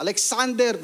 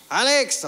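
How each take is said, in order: First: Mildly cross full-name call, high; angry mother's call. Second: Put-on mother calling her child, high; everyday name call. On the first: Retold or imitated. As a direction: imitate Mom calling out the whole name crossly. (gayang galit na tawag ng nanay) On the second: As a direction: call out the short name, a little raised. (tawag ng nanay sa palayaw) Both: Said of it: "pag galit, ano, buong pangalan".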